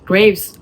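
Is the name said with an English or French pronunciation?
English. The name is pronounced the English way. "j'ai préféré le dire en anglais"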